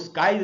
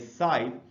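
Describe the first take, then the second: First: The word begins with an sk sound. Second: The word begins with a plain s sound. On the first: The speaker calls it wrong. "इसलिए इसको स्काइज नहीं पढ़ना चाहिए" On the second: The speaker calls it right. "इसमें सी silent है"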